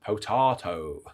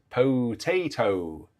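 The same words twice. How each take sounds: First: Potato said po-TAH-to; potato with a long ah; British potato. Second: Potato said slowly, po-TAY-to; drawn-out po-TAY-to; American potato. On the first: Shown as a demonstration. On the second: Retold or imitated. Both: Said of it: "Doug Oliver says".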